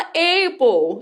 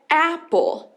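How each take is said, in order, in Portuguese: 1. A primeira vogal não é um A curto e aberto. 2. A primeira vogal é um A curto e aberto. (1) "muita gente erra e fala apple" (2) "porque é apple"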